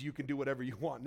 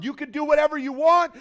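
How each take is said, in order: First: Softer, fast throwaway; quick dismissive aside. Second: Much higher, much louder mock boast; mocking bold claim. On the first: Retold or imitated. Preacher brushing off the wrong idea, quick soft aside. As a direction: toss it off quickly and quietly. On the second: Preacher mocking the wrong idea of grace, loud boast. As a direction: belt it out like the misguided idea of grace. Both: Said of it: "that's not what grace is".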